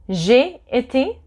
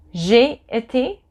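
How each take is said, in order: Both takes have the same delivery.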